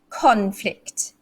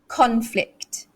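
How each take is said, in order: First: The stress is on the first syllable. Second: The stress is on the first syllable.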